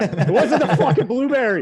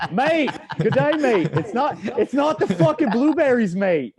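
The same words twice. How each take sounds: First: Loud, higher hammed-up Boston accent. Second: High, loud hammed-up Australian accent. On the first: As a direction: shout it like a laughing Boston guy. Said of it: "every time I do a Boston accent". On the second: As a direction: slip into a cartoon Aussie, laughing. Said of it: "I turn, like, Australian".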